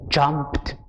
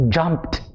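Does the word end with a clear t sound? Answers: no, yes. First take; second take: yes; yes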